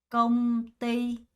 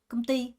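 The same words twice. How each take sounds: First: Slow, with the syllables said evenly, one by one. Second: The stress is on the second syllable. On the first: "천천히 하나씩 해볼게요" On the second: "두 번째 강세를 주면서"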